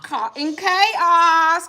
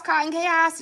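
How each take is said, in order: First: Excited. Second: Said in the usual way. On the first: Real, not acted. Excited shout-out to sponsor.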